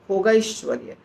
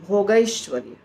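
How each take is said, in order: First: The two words are merged into one word. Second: The two words are merged into one word.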